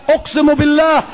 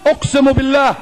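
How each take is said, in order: Both takes have the same delivery.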